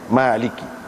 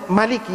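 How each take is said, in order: First: The first vowel is held long. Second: The first vowel is kept short. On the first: "ada atas panjang" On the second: "Hak baca pendek"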